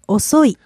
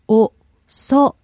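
First: It is said fast as one word. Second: It is said slowly, syllable by syllable.

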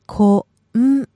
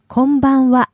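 First: It is said slowly, syllable by syllable. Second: It is said quickly as one word.

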